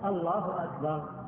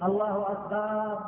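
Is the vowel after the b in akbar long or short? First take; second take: short; long. First: The vowel after the b is kept short. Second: The vowel after the b is drawn out long. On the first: It states that God is greatest. The speaker calls it right. "من غير أن يمد الهمزة في أول أو الباء" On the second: The word changes to mean drums. The speaker calls it wrong. "لا يمد بالباء، فلا يقول الله أكبر، لا يجوز"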